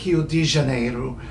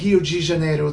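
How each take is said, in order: First: The word de is said with a plain d. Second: The word de is said like ji. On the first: The speaker calls it right. "they say Rio de Janeiro" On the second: The speaker calls it wrong. "they usually don't say Rio de Janeiro"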